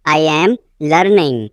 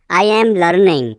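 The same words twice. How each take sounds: First: Teacher separating off "learning"; broken-up repeat. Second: Said in the usual way. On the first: Shown as a demonstration. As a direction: pause before "learning".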